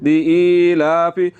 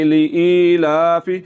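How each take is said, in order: No difference in how they are said.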